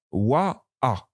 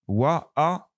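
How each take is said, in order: First: "wa" then plain "a", two distinct sounds; wa against a. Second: "Wa" rounded, then an open "A"; wa versus A. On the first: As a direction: contrast "wa" with a bare "a". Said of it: "Ce n'est pas le même son". ("wa" puis "a", bien distincts) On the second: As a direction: set "Wa" against "A" clearly. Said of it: "différent". ("Wa" arrondi, puis "A" ouvert) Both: Shown as a demonstration.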